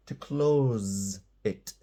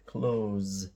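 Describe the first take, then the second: First: Slow "to close it", close ending in a buzzing z; verb close with a z. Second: "Close" said with a voiced z at the end; verb close with a z. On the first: Teacher drawing out the verb, close ending in z. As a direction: stretch "close" out and finish on a z. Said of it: "Now this is the verb to close". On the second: Teacher modelling the verb, close ending in z. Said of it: "this is the verb to close". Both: Shown as a demonstration.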